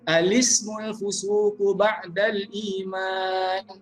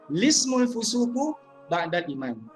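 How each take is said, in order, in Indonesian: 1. Mulainya dengan vokal 'a' sebelum 'lismu'. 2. Mulainya langsung dengan 'lismu', tanpa vokal di depannya. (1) "Yang pertama, ... iaitu membariskan hamzah wasal itu a lismu" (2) "Yang kedua"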